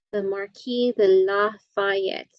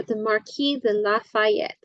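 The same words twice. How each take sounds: First: The Marquis de Lafayette spelled out slowly for students; slow, clear repeat. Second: Said in the usual way. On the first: Shown as a demonstration. Teacher repeats the name slowly for the class.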